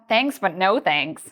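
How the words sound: The refusal sounds firm, blunt and rude. The offer is strongly rejected. "Then that's a strong rejection"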